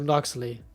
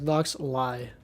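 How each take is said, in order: First: The name ends with an 'ee' sound. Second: The name ends with an 'eye' sound. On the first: The speaker calls it right. "it's like so Noxley. More like that" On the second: The speaker calls it wrong. "I'm not pronouncing it as Nox Lie"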